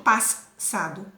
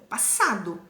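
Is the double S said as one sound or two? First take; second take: two; one. First: The double S is sounded as two sounds. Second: The double S is sounded as one sound. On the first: The speaker calls it wrong. "eu não digo passado" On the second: The speaker calls it right. "é um único som"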